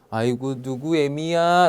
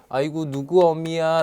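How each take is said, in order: First: The first vowel of 어미 is the fronted vowel. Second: The first vowel of 어미 is the back vowel. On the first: This is the dialect form. "보통 아이고 누구 애미야 라고 말씀하시죠" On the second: This is the standard form. "안 하시고"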